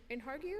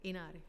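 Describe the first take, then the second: First: "Inhargue?" with a sounded H, rising as a question; unsure mispronunciation. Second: "Inargue" with no H, falling softly as a statement; corrected pronunciation. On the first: Chair calling up a panelist by name, unsure "Inhargue?" with rising end. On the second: Chair echoing the panelist's correction, "Inargue" without H. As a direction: repeat "Inargue" lower, without any H sound. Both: Real, not acted. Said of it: "how do you pronounce your last name?".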